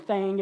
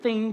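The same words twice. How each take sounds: First: It is said with a southern twang accent. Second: It is said in a plain, neutral accent. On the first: "we speak with a little bit more of a southern twang" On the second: "instead of saying thing"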